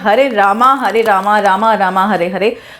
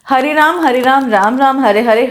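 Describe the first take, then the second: First: The name ends with an added long a vowel. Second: The name ends on the m, with no final vowel.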